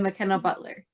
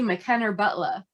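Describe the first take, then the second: First: McKenna ends in 'a' and Butler ends in 'er'. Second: McKenna ends in 'er' and Butler ends in 'a'. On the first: This is how the name is normally said. "instead of" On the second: Other people said the name this way. "words that end in E R were pronounced like they ended in A, and then words that pron- ended in A were pronounced like they ended in E R"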